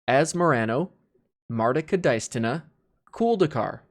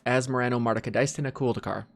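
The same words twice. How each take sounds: First: It is said slowly, in sections. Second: It is said quickly, run together.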